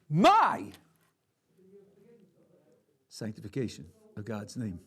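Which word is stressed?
my. The stress falls on the word my. The person doing the act seems unimportant. "The second way is where I'm trivial"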